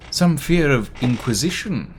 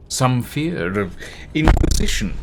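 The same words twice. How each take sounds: First: Said in the usual way. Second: Sudden loud burst on "inquisition"; too loud. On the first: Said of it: "Sorry, everybody". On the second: Real, not acted. Narrator overdoing a line about inquisition, too loud. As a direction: overshoot the volume on "inquisition". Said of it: "Ouchie. Sorry, everybody".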